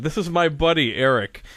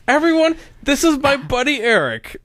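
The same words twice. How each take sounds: First: Said in the usual way. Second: High-pitched imitation of an eager announcement; excited introduction, imitated. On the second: Imitating Cindy introducing a friend to everyone, excited. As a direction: announce him to the room, voice way up. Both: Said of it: "that was the introduction".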